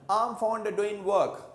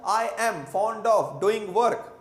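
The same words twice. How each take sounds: First: British-style I am fond of as 'um fonda', doin' without g; slow British linking: um fonda doin' work; British connected speech. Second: Said in the usual way. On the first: Shown as a demonstration. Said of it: "Like this they say". (British अंदाज़ में 'अम फ़ॉन्डा डूइन वर्क') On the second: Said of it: "मैं कहता हूँ".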